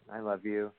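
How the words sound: It still sounds mostly flat.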